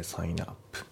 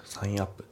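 First: サインアップ run together as sainap, softer; サインアップ linked; linked pronunciation. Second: サインアップ with sign and up apart; サインアップ unlinked; unlinked reading. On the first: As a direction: glide サインアップ into one. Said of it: "リンキングで". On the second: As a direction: say サインアップ as two words. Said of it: "サインアップじゃなくて". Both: Shown as a demonstration.

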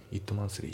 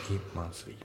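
First: Said in the usual way. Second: "In monthly" as "it monthly" minus the T; dropped T. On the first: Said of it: "It monthlyじゃなくて". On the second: Shown as a demonstration. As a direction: go from i straight to the m, no T. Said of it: "ItのTが抜けて". (Tを抜いて「In monthly」)

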